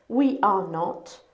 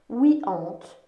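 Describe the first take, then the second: First: All three words are said separately and fully. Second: The verb and not merge into one syllable. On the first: "je te mets la forme pleine ici" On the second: "Si je contracte, donc si je colle be et not"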